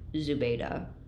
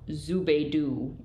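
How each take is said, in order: First: The first syllable does not rhyme with Scooby. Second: The first syllable rhymes with the 'Scoo' in Scooby. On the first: The way the name's own advocate says it. "the advocate on behalf of Zubaydah pronounces it Zubaydah" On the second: Another person's way of saying the name. "the Chief Justice called Zubaydah, which reminded me of Scooby-Dooby-Doo"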